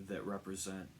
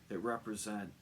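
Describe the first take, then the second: The two takes are said the same way.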